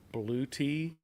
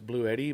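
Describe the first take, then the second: First: The middle consonant sounds like a t. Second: The middle consonant sounds like a d. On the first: The speaker calls it right. "but apparently it's Blue Tea" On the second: The speaker calls it wrong. "I pronounced it as Blue Eddy"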